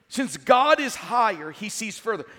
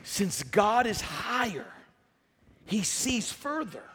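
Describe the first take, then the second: First: Forceful restatement. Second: Deliberate statement. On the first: Restates sermon point with force. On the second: First statement of sermon point. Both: Real, not acted.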